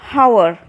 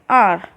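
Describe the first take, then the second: First: The word begins with an h sound. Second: The word begins with a vowel sound. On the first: The speaker calls it wrong. "we do not pronounce it hour" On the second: The speaker calls it right. "We call it R"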